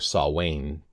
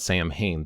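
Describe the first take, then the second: First: The middle consonant is a w sound. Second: The middle consonant is an m sound. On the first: The speaker calls it right. "The M H makes a W sound. So that's why it's Samhain" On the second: The speaker calls it wrong. "this isn't Samhain"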